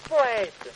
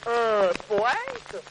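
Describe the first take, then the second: First: Said in the usual way. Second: "poète" drawn out in a different, astonished voice; surprised echo. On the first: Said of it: "proud answer". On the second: Acted. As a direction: repeat "poète" as if struck. Saint-Pierre reacts to poet.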